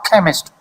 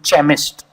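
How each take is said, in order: First: It begins with a hard k sound. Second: It begins with a ch sound.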